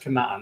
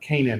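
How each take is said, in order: First: The name is said with a non-English pronunciation. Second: The name is said with the English pronunciation.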